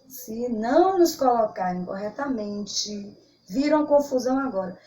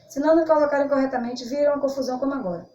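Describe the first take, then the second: First: There is a clear pause after corretamente. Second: It runs on quickly with no pause. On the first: The comma is present. The speaker calls it right. "Observe a pausa que é dado quando se é colocada a vírgula" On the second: The comma is removed. The speaker calls it wrong. "Se você tirar vírgula, olha como ficaria. ... Veja como fica atropelado"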